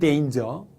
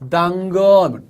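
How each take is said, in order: First: It is said with English sounds, like 'dane-jer'. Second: It is said with Korean sounds, like 'dang-geo'. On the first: The speaker calls it right. "정확한 발음은 danger죠" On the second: The speaker calls it wrong. "왜 그렇게 발음을 망치십니까?"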